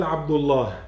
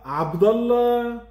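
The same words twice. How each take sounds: First: Abdullah with a clear u in the middle and a breathy h at the end; the proper Abdullah, u then a final h; correct pronunciation. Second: Abdallah said with a plain a in the middle and no h; the careless Abdallah, vowel flattened to a; wrong pronunciation. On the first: Teacher showing children the right way, saying Abdullah with the h. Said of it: "avec le H à la fin". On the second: Teacher showing children the wrong way, saying Abdallah without the h. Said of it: "on l'appelle pas Abdallah". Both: Shown as a demonstration.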